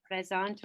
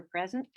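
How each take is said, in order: First: "Present" said the French way, nasal an, stress on the last syllable; "Present" as French présent, pray-ZAHN. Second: Said in the usual way. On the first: Shown as a demonstration. Chair showing councillors the French roll-call reply, French "Present". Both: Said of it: "if you could please just say".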